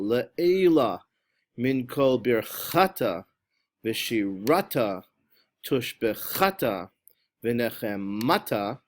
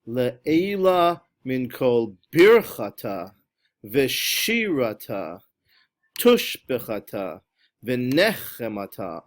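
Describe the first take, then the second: First: The stress falls on the middle syllable. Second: The stress falls on the first syllable. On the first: "on the middle syllable" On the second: "on the first syllable, try to make that disappear"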